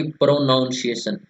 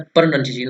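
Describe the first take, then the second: First: प्रोनाउंसिएशन with a full "noun" in the middle; wrong pronunciation. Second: प्रोनंसिएशन with a short "nun" in the middle; correct pronunciation. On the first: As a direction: mispronounce प्रोनाउंसिएशन as pro-NOUN-ciation. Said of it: "ना कि प्रोनाउंसिएशन". (प्रोनाउंसिएशन में बीच में "नाउन" बोलकर) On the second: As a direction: say प्रोनंसिएशन as pro-NUN-ciation, not "noun". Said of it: "क्या होता है?". (प्रोनंसिएशन में बीच में छोटा "नन" बोलकर) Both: Shown as a demonstration.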